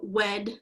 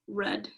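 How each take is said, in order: First: The word begins with a W sound. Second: The word begins with an R sound.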